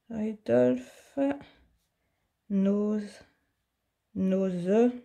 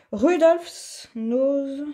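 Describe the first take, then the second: First: French-accented English. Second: "Rudolph's Nose" read slowly in careful French-accented English, each syllable drawn out. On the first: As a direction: test each English word again under your breath with a French accent. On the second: Crafter reading a paint label to viewers, slow French-accented English. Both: Real, not acted. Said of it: "j'ai quelques souvenirs de mon anglais".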